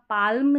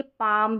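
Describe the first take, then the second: First: पाल्म said with the l sounded as the wrong version; wrong pronounced l. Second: पाम said with no l sound; silent l. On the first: Teacher showing students the wrong way, sounded l. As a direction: sound the l in पाल्म to show the mistake. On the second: Teacher showing students the right way, silent l. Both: Shown as a demonstration. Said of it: "यहाँ पाल्म नहीं बोलते हैं".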